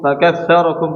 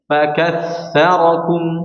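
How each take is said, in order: First: The f is said weakly without audible breath. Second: The f is said clearly with audible breath. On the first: The speaker calls it wrong. "Kalau gini enggak jelas" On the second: The speaker calls it right. "Kita baca dengan jelas"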